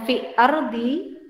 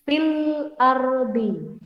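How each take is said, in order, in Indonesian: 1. Bunyi 'l' sama sekali tidak diucapkan. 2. Bunyi 'l' terdengar jelas. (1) "Bacanya bukan" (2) "tapi fil ardi. Alnya terbaca"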